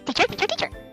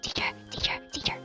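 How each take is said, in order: First: It is said quickly. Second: It is said slowly and softly.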